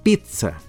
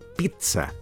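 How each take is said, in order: First: The middle consonant is a relaxed D sound. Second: The middle consonant is a T sound. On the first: "o más relajadamente, pizza, con D" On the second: "con el sonido T"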